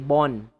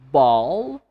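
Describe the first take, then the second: First: The word ends with an N sound. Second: The word ends with an L sound. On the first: The speaker calls it wrong. "They replace L with N" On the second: The speaker calls it right. "instead of saying ball"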